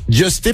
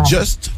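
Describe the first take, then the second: First: The name ends with an ay vowel. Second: The name ends on a plain t sound. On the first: The speaker calls it right. "d'autres qui disent Justé" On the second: The speaker calls it wrong. "Il y en a qui disent Just"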